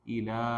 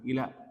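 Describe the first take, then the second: First: The vowel after the L is held long. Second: The vowel after the L is cut short. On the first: The speaker calls it right. "Jadi panjangnya dibaca dua" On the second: The speaker calls it wrong. "jangan ila"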